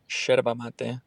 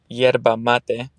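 First: It is said with the Argentine pronunciation. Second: It is said without the Argentine pronunciation.

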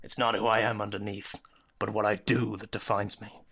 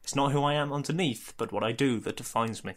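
First: It is said in a Batman impression voice. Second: It is read in his own normal voice.

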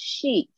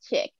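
First: The word is said the French way. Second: The word is said the English way. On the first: "in French, maybe it is" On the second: "but here is chick"

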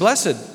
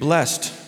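First: The word is said with two syllables. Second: The word is said with one syllable.

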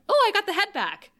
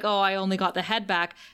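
First: It is said in an excited tone. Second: It is said in a sad tone.

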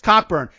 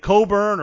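First: The first syllable sounds like cock. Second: The first syllable sounds like co, no k. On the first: This follows how the name is spelled. "Look at the dude's name. It's Cockburn" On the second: This is how it is said on TV. "They say it differently on TV. They say Coburn"

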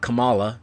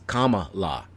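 First: The start does not sound like 'comma'. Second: The start sounds like the word 'comma'. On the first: The speaker calls it wrong. "It's not Kamala" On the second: The speaker calls it right. "It's Kamala. Like, comma"

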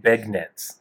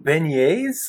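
First: The word is said with a non-French pronunciation. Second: The word is said with the French pronunciation. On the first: The speaker calls it wrong. "he just doesn't know how to pronounce it" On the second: The speaker calls it right. "You mean beignets? Learn French"

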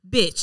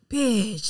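First: The word sounds hostile and threatening. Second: The word sounds friendly and playful. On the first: It is an insult that offends the listener. "it was just a couple of octaves of a difference of how you say it, and then somebody's offended" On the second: It is an affectionate greeting between friends. "bitch, did you hear about da-da-da-da?"

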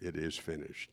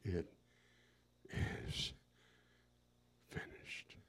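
First: It is shouted out loudly and forcefully. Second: It is groaned weakly, barely voiced. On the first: It was a loud cry of triumph. The speaker calls it wrong. "he shouted it out" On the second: It came from utter exhaustion. The speaker calls it right. "I think it just barely came out. I think it was a groan"

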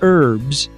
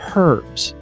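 First: The word begins without any h sound. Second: The word begins with an audible h sound. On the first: The speaker calls it wrong. "the French pronunciation because French Canadians don't sound out their H" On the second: The speaker calls it right. "That's the way it's supposed to be pronounced"

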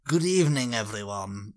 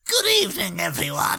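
First: A put-on villain voice at a lower pitch. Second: A put-on villain voice at a higher pitch.

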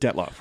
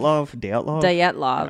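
First: The name sounds like Detlef, an anglicized form. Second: The name sounds like Dyatlov, a Russian-like form. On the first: "we've been pronouncing that wrong" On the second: "Josh Gates pronounced it"

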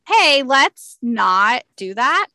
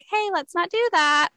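First: It is said in a firm, assertive way. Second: It is said in a soft, timid way. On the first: The speaker calls it right. "I make eye contact and say" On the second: The speaker calls it wrong. "I say it more assertively than like"

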